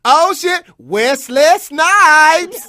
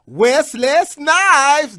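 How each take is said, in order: First: High, loud, drawn-out shout of the name; starstruck shout. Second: High, loud, slowly stretched name; starstruck shout. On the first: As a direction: stretch the name out in a yell. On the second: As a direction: drag out Wesley Snipes loudly. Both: Retold or imitated. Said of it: "I would say".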